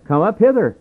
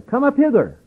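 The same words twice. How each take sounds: First: Raised, higher call from heaven; heavenly voice. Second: A high, ringing call from above; heavenly voice. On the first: Preacher voicing the call from heaven, raised. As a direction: call them up, a bit louder. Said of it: "a great voice from heaven saying". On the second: Preacher echoing the heavenly voice, calling high. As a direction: lift the pitch far up and call them home. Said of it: "saying unto them". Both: Retold or imitated.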